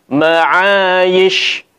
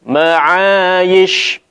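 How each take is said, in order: Both takes have the same delivery.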